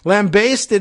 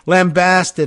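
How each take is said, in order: First: The second syllable rhymes with 'baste'. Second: The second syllable has a flat vowel, like 'past'. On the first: This is the form preferred in Australia and New Zealand. "like you're basting a lamb that's baking in the oven" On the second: This is the form preferred in American and British English. "the flat-sounding and American, and English, I think, preferred pronunciation"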